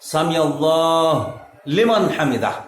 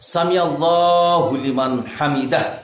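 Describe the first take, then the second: First: Allah is cut off before liman. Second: Allah ends in a vowel linking into liman. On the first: The speaker calls it wrong. "এটা বলা যাবে না" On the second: The speaker calls it right. "এটাই হচ্ছে সঠিক উচ্চারণ"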